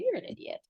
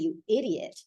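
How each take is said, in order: First: It is said warmly, as a loving joke. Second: It is said harshly, as an insult.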